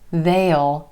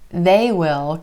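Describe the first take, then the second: First: It is a contraction with a clear vowel. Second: It is said as two full words. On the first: "can become they'll" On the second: "They will can become they'll"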